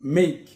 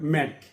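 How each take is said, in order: First: The vowel sounds like the a in day. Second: The vowel sounds like the a in cat. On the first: The speaker calls it right. "এর pronunciation হবে মেক" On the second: The speaker calls it wrong. "আমরা বলতে পারি ম্যাক, এটা ম্যাক না"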